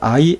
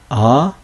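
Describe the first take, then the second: First: The vowel glides into a final 'ee' sound. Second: The vowel is plain with no final 'ee'. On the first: This is the older classical pronunciation. The speaker calls it wrong. "이것을 I, A, 오이로 읽으면 안 돼요" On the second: This is the later Koine pronunciation. The speaker calls it right. "그냥 아, 에, 오 이렇게 읽어야 하는 것이죠"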